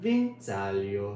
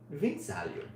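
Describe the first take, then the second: First: The word is drawn out slowly. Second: The word is said at normal speed.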